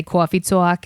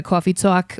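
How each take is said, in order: First: "coffee talk" said as "cwoffee tawk" in an exaggerated New York accent. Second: Said in the usual way. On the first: Shown as a demonstration. To the podcast host, showing the camp routine in a hammed-up New York accent. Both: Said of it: "do a New York accent like that".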